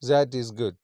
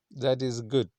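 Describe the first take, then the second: First: Put-on "That" as "zat", louder foreign accent; imitated foreign tourist accent, louder. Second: Said in the usual way. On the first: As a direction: foreign accent, buzz a Z to start "That". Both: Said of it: "that, there is Z".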